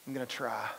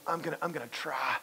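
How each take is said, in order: First: A limp, noncommittal I'm gonna try; half-hearted promise. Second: Hesitant I'm gonna, I'm gonna try, trailing off; half-hearted promise. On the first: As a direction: say it like you don't mean it. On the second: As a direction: stall and then give a weak promise. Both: Shown as a demonstration. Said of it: "almost give that little bit".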